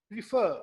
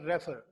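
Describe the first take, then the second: First: Refer said loud with the weight on fer, ri short; correct stress on fer. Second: Refer stressed on the first syllable re, the wrong way. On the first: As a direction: land hard on the second syllable of Refer. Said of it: "फर को हमने stress करना है". (Refer में दूसरे syllable fer पर ज़ोरदार stress) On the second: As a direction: put the weight on re in refer. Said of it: "जब आप रेफर कहेंगे तो ... स्ट्रेस भी फर्स्ट सिलेबल पे". (refer में पहले सिलेबल re पर ग़लत stress) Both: Shown as a demonstration.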